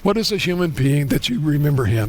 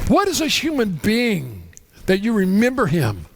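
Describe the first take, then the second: First: It is read plainly without marked emphasis. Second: It is read in a cadence with marked emphasis. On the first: The reader gets little out of the passage. The speaker calls it wrong. "you can read it like this" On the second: The reader draws out the passage's meaning. The speaker calls it right. "There's emphasis put on certain things"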